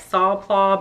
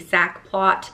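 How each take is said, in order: First: The name is said with a French pronunciation. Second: The name is said with an English pronunciation. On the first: This is the proper way to say it. "It's actually pronounced like" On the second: This is the speaker's everyday way to say it. "I'm not French, so I don't pretend to speak French"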